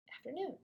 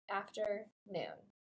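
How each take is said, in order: First: It is said fast as one word. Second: It is said slowly, parts drawn apart.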